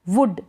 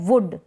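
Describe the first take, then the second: No difference in how they are said.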